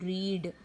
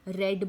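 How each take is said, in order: First: The vowel is long, like in 'reed'. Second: The vowel is short, like in 'red'. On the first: It happens regularly in the present. "तब उसमें मैं क्या बोल रही हूँ, रीड" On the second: It happened in the past. "रीड की जगह पे क्या बोला, रेड बोला"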